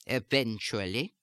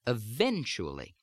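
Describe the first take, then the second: First: German-accented "eventually", clipped syllables with secondary stress, rising end. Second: Standard American "eventually", strong second syllable, the rest unstressed; American-accented "eventually", falling at the end. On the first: Accent coach repeating the stress pattern, "eventually" in German accent. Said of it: "unstressed syllables ... will take on a secondary stress". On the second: Accent coach showing the stressed second syllable, standard American accent. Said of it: "In American speech, that has much more stress". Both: Shown as a demonstration.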